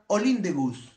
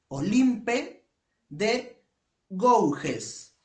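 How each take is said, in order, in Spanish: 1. El nombre se dice con sonidos franceses. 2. El nombre se lee con sonidos de letras españolas. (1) "se pronuncia" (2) "así se escribe"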